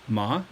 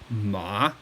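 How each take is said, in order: First: The pitch rises like a question. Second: The pitch drops down low. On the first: "like you're asking a question" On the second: "Third tone, ma. You kind of drop down"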